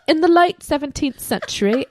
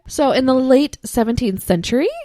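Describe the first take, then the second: First: It is said in a put-on British accent. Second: It is said in a plain non-British accent. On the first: The speaker calls it right. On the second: The speaker calls it wrong.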